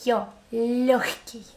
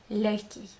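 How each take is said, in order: First: Лёгкий drawn out slowly, with the yo stretched; stressed yo. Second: Said in the usual way. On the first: Shown as a demonstration. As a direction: spell out yo, then лёгкий. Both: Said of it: "This yo".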